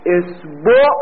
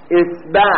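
First: اصبع pronounced esbo, ending on o, rising; second reading. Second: اصبع pronounced esba, ending on a, rising; first reading. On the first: Teacher showing students the other way to read اصبع, esbo. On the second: Teacher showing students the first way to read اصبع, esba. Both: Shown as a demonstration. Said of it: "اصبع تلفظ داره".

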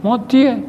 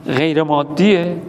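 First: Emphatic "مادیه", raised and punched; firm answer. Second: "غیر مادیه؟" asked slowly, with a falling doubtful tune; slow mock doubt on "غیر مادیه؟"; doubting question. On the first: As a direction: hit "مادیه" hard as the correct answer. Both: Shown as a demonstration. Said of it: "نه".

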